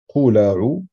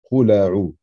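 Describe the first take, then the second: Both takes have the same delivery.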